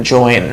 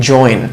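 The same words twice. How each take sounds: The two takes are said the same way.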